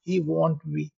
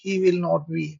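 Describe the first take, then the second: First: Will not is contracted into one short word. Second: Every word is said in full, taking longer. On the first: The speaker calls it right. "इससे आपको कम time लगेगा" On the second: The speaker calls it wrong. "लंबा लग रहा, खींच रहा, time लग रहा"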